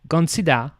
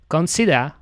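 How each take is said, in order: First: It is said with a British accent. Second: It is said with a British accent.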